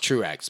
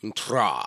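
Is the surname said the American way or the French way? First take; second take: American; French. First: The surname is said with an American pronunciation. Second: The surname is said with a French pronunciation. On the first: This is the adapted pronunciation of the name. "because it's Americanized" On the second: This is the original pronunciation of the name. "my name's actually pronounced like Tra"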